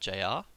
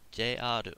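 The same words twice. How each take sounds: First: The letters are said with English pronunciation. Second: The letters are said with Japanese pronunciation. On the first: The speaker calls it wrong. "It's not J R" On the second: The speaker calls it right. "just notice the way I pronounce this word"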